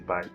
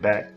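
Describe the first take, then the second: First: The vowel glides, sounding like 'bike'. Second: The vowel is a short flat 'a' sound. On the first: "I'm from Florida, guys, so my accent may sound a little, a little funny" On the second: "instead of saying back"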